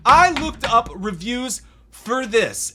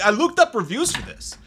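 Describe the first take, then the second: First: Slow, high, loud, word by word; slow emphatic repeat. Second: Said in the usual way. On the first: Real, not acted. Reviewer appalled by having read reviews, slow emphatic repeat. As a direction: spell out each word in disbelief.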